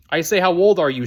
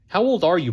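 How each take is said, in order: First: Raised voice, as if to someone hard of hearing; shouting. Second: Said in the usual way. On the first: A narrator's reading. Chloe teasing Buck as a deaf old man, shouting. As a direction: say it loudly and emphatically for deaf ears. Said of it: "she shouted, as if talking to a deaf old man". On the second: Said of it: "she shouted".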